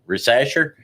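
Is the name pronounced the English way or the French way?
English. The name is read with English sounds. The speaker calls it wrong. "I'm sure that's not how you pronounce it"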